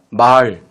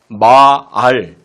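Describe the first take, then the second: First: The vowel is said short and plain. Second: The vowel is stretched out long.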